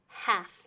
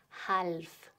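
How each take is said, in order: First: The L sound is silent. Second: The L sound is pronounced. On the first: The speaker calls it right. "La L es muda" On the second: The speaker calls it wrong. "Nunca decimos half. Muy mal"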